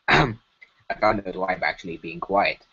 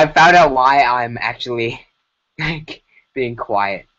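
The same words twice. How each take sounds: First: Chief Dorfdorf. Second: Said in the usual way. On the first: Acted. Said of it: "in his voice".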